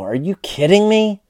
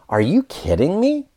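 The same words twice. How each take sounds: First: The pitch falls at the end. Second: The pitch rises at the end. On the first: The speaker is surprised but disappointed or disgusted. "So that kind of down tone would indicate disappointment" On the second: The speaker is amazed and can't believe it. "your intonation needs to go up"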